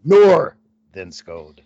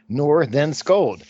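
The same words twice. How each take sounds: First: "Nor then Scold" slowly, with "Nor" punched louder and falling; accent on first syllable. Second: "Nor then Scold" said slowly, each syllable separate and even, just as spelled; spelled-out pronunciation. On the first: Host retrying the caller's name with stress on "Nor", slowly. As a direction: hit "Nor" hard, then let "then Scold" trail slowly. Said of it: "with the accent on the first cylinder, s-, first syllable". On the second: Host reading a caller's name guide, slow syllable-by-syllable pronunciation. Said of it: "My last name is pronounced just as spelled".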